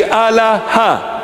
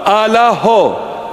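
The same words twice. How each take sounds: First: Allaha ending in a; Eastern Syriac Allaha. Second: Allaho ending in o, slowly; Western Syriac Allaho. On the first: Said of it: "We say". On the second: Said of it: "For God". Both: Shown as a demonstration.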